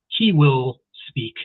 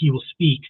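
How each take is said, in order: First: The word he is stressed. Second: It is said with no special stress on he.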